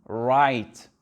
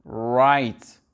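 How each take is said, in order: Both takes have the same delivery.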